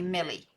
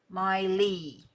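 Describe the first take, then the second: First: The name's first vowel is short. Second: The name's first vowel is long. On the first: "With a short E in my head, it would be Millie" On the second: "With a long E"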